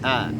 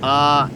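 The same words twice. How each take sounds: First: The vowel is said thin and light. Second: The vowel is said thick and heavy. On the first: The speaker calls it right. "A dan tipis saja" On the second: The speaker calls it wrong. "jangan sampai dibaca A"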